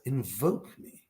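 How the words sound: It is said softly and warmly. It is a caring invitation to call for help. "It's said with love, it's said with care"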